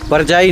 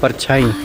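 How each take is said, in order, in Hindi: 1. यह पंजाबी के भाभी शब्द की तरह बोला गया है। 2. यह हिंदी के छाया शब्द की तरह बोला गया है। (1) "परछाई तो पंजाबी में भाभी को बोलते हैं" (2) "ये है परछाई"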